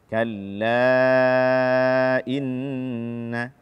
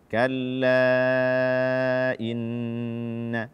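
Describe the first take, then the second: Both takes have the same delivery.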